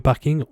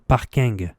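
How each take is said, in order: First: It is pronounced with a French accent. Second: It is pronounced with an English accent. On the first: "au lieu de parking" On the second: "avec cette logique... on devrait dire parking"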